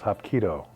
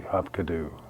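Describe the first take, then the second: First: The word is said the established way. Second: The word is said as a guessed reading. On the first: This is how the word is properly said. The speaker calls it right. "the way you pronounce it is Hopkido" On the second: The speaker is guessing from the sign's letters. The speaker calls it wrong. "I'm thinking to myself, Hopkidoo, what could that possibly be?"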